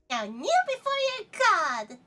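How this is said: It is said in a dramatic acting voice.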